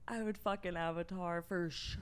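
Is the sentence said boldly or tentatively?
tentatively. It is said in a plain, tentative way.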